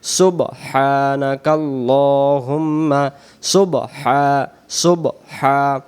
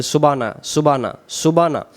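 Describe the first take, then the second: First: সুবহা- drawn out slowly with a clear h; slow corrected সুবহা-; correct pronunciation. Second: সুবানা said with the হ dropped; mispronounced সুবানা, no h; wrong pronunciation. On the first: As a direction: stretch সুবহা- and sound the হ. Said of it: "উচ্চারণ সহি শুদ্ধ হবে সুবহানা". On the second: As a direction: say সুবানা without the h sound. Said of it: "সুবানাকা এমন করে হবে না". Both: Shown as a demonstration.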